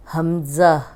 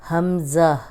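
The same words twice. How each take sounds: The two takes are said the same way.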